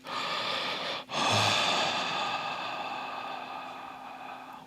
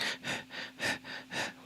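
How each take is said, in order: First: One long, drawn-out breath sigh; deep breath. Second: Quick, soft little puffs of breath; short shallow breaths. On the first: Meditation guide shows listeners a deep breath, long airy sigh. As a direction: breathe long and slow, letting it trail away. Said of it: "instead of taking deep breaths". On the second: Meditation guide shows stressed breathing, short shallow breaths. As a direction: pant lightly in short separate bursts. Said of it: "shallow breaths like". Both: Shown as a demonstration.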